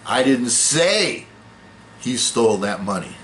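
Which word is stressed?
say. The word 'say' carries the main stress. It was conveyed some other way than saying. "No, I wrote it down, or I whispered it, or I implied it"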